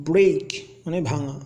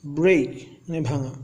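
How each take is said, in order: Both takes have the same delivery.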